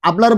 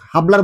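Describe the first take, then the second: First: The word begins directly with a vowel. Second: The word begins with an audible h sound. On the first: The speaker calls it right. "এখানে আবলার বলেছি" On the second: The speaker calls it wrong. "হাবলার বলিনি"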